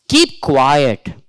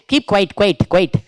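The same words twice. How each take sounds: First: Said in the usual way. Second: "quiet" repeated with a laugh; wrong repeated quiet. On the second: Shown as a demonstration. Teacher mocking the wrong way to say "Keep quiet", with a laugh. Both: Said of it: "Don't say".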